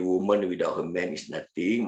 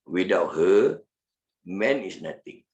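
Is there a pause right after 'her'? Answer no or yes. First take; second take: no; yes. First: It flows with no pause after 'her'. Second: There is a pause after 'her'.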